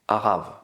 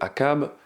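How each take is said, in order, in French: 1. Le nom est prononcé avec une prononciation hébraïque. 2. Le nom est prononcé avec une prononciation française. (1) "les véritables noms" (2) "je vais prononcer à la française"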